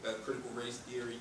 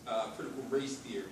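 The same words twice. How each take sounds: The two takes are said the same way.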